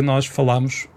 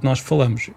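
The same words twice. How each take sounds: First: "falamos" with an open á in the middle, like falámos. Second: "falamos" with a closed, muffled a, like fâlamos. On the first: Host showing which form people could switch to, open a. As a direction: give "falamos" the open vowel of the northern form. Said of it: "passem todas a dizer". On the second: Host showing the form he keeps using, closed a. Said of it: "em vez de". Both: Shown as a demonstration.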